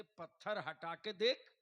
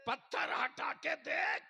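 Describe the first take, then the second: First: Said in the usual way. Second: High, loud preacher's order; shouted command. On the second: Acted. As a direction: hammer out the command at full voice. Preacher repeats command at full force. (ज़ोरदार ऊँची आवाज़ में हुक्म)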